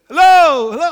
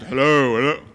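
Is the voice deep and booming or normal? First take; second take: normal; deep booming. First: It is said in a normal voice. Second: It is said in a deep, booming giant voice.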